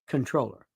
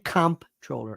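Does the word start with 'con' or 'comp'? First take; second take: con; comp. First: It starts with 'con', with no p sound. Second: It starts with 'comp', with a p sound. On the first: The speaker calls it right. "It is pronounced controller" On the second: The speaker calls it wrong. "Don't say comptroller ever"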